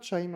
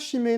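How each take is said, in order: First: The word is read with English sounds. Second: The word is read with French sounds. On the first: The speaker calls it right. "ça se prononce pas bien Chime" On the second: The speaker calls it wrong. "Ça se prononce pas Chimay"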